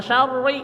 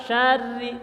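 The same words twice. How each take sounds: First: "syarri" with a thick, full ro; heavy ra. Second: "syarri" with a light r on the tongue tip; thin ra. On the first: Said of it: "Jangan syarri". ("syarri" dengan ro tebal) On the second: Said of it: "jadi hampir ujung lidah". ("syarri" dengan ro tipis) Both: Shown as a demonstration.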